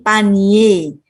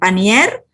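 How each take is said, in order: First: The word ends in a vowel, no r sound. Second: The word ends with an audible r sound. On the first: The speaker calls it right. "tapi panie ... R-nya dihilangkan" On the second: The speaker calls it wrong. "Bukan panier"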